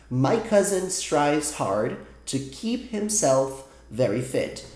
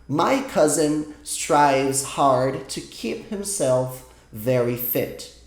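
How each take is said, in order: The two takes are said the same way.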